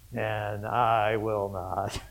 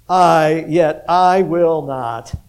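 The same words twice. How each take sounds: First: Softer, very slow, dismissive "and I will not" with "I" stretched; quiet contempt. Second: Loud, slow, I punched hard in "yet I will not"; emphatic I. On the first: Peter scorning the others to the Lord, soft and contemptuous. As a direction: murmur it with scorn, slowly dropping "I will not". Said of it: "a contempt in what he says". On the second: Peter vowing to the Lord, loud with stress on "I". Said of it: "the "I" is emphatic". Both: Retold or imitated.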